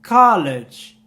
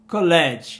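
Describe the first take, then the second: First: The word is said with English sounds. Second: The word is said like Portuguese colégio. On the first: The speaker calls it right. "o college" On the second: The speaker calls it wrong. "a gente tende a falar como colégio no português"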